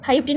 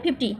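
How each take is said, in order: First: The word begins with the sound 'five'. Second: The word begins with the sound 'fif'. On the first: The speaker calls it wrong. "ফাইভটি না" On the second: The speaker calls it right. "না ফিফটি"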